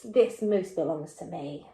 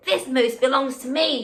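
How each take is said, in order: First: Lower, firm and cross; a hint of a stern cross boy. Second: Said in the usual way. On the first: Shown as a demonstration. Teacher showing Wilfred very cross, lower and firm. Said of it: "very, very cross". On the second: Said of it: "he explained".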